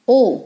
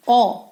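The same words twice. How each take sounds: First: ओ said as 'oh', as in hope; long rounded ओ, the vowel of 'hope'; long O sound. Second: ओ said as open 'aw', as in hop; short phonics ओ, not 'oh'; short O sound. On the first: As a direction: give ओ the letter name of O. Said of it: "long sound है". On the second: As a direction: give ओ the short vowel of 'hop'. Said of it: "ओ इसका short sound है". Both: Shown as a demonstration.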